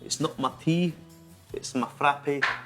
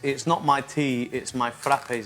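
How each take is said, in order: First: It is said in a put-on Scottish accent. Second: It is said in the speaker's ordinary accent.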